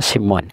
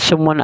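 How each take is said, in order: First: The first vowel is a front 'i' sound. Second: The first vowel is a rounded 'u' sound. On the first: "kasrah sin" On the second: "dibaca dhamma sin"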